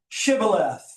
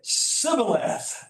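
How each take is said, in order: First: The word begins with a sh sound. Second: The word begins with a plain s sound. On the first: The speaker calls it right. "Notice I've underlined the H" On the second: The speaker calls it wrong. "They could not frame the H"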